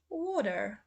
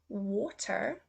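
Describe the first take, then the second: First: It is said in an American accent. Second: It is said in a British accent. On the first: "then I will say the U S" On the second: "first say the U K pronunciation"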